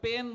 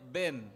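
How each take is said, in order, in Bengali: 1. এটি P ধ্বনি দিয়ে শুরু হয়। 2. এটি B ধ্বনি দিয়ে শুরু হয়। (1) "ওরা যখন পেন বলতে চায় কলম" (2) "ওদের মুখ থেকে উচ্চারিত হয় বেন"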